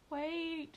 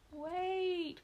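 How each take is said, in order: First: Shouted. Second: High urgent cry of a trapped mouse; cried out. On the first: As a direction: shout to halt the launch. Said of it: "shouted Mooseberry". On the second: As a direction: call out to stop them, loud and high. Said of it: "cried Mooseberry". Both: A narrator's reading.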